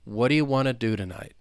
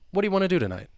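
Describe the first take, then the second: First: The sentence is spoken at a slow pace. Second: The sentence is spoken very quickly. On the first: "Let's say it slowly" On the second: "if I were to say it very quickly, super fast"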